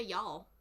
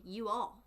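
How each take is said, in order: First: "y'all" run into one syllable; contracted Southern y'all. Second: "you all" as two separate words; uncontracted you all. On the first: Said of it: "I know y'all don't say". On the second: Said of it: "You say". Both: Shown as a demonstration.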